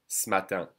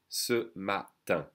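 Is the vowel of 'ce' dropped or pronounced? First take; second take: dropped; pronounced. First: The vowel is dropped, joining s to matin. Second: The vowel in 'ce' is fully pronounced.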